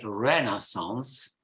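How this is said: The word is said with an American pronunciation. "the Americans say Renaissance"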